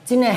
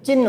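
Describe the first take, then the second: First: The word ends with an h sound. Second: The word ends with an n sound. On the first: The speaker calls it wrong. "ये गलत है, है नहीं आता" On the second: The speaker calls it right. "चिन्ह न आता है लास्ट में ... ये सही है"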